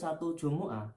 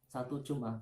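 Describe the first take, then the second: First: The m is followed by a u vowel. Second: The m is followed directly by the next consonant. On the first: It names the day Friday itself. The speaker calls it wrong. "Tidak boleh satu Jumu'ah" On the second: It counts a period of seven days, a week. The speaker calls it right. "hanya boleh di disukun Jum'ah"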